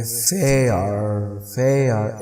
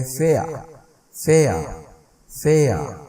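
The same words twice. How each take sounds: First: American "फेयर" with the final R pronounced; American, sounded R. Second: British "फेयर" with the final R dropped; British, silent R. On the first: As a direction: finish "फेयर" on a clear R. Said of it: "जो American वाले हैं वो कहेंगे". ("फेयर" American ढंग से, आख़िर में आर के साथ) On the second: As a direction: end "फेयर" on an open vowel, no R sound. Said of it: "अगर ब्रिटिश वाले होंगे वो कहेंगे". ("फेयर" ब्रिटिश ढंग से, आख़िरी आर के बिना) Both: Shown as a demonstration.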